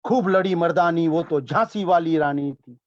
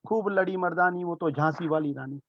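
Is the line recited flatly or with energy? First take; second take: with energy; flatly. First: It is recited with expressive energy. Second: It is recited flatly, without expression.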